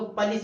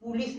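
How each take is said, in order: First: "पुलिस" with a reduced first vowel, pə-lis; correct pronunciation. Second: "पुलिस" with a full u as pu-lis; wrong pronunciation. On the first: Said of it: "पुलिस नहीं पढ़ते हैं". ("पुलिस" सही, पलिस की तरह) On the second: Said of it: "इसको पुलिस पढ़ते हैं". ("पुलिस" गलत, पु-लिस की तरह) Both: Shown as a demonstration.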